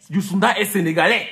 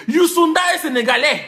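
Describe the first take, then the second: First: Said in the usual way. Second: Plus haut, plus fort, en martelant; insistant. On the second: Acted. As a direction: marteler la vérité à ceux qui se trompent. Corrige ceux qui volent ses stars. (affirmé fort contre ceux qui volent les stars des gens)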